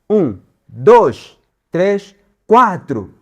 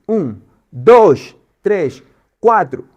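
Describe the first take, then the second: First: The second and fourth counts are stressed. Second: The same.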